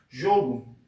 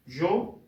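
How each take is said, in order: First: Said in the usual way. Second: "jogo" as two beats, JO, pause, GO; split into syllables. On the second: Shown as a demonstration. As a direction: break jogo into separate syllables. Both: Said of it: "a gente vai separar".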